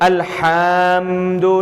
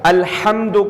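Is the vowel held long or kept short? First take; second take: long; short. First: The vowel is stretched out and held long. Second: The vowel is kept short without stretching. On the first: The speaker calls it wrong. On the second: The speaker calls it right.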